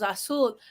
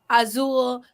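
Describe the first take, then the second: First: The middle consonant is a hissing s sound. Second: The middle consonant is a buzzing z sound. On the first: The speaker calls it right. "but it's actually ... because the Z sounds more like an S in Spanish" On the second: The speaker calls it wrong. "for years I mispronounced the letter Z in Spanish. I would say"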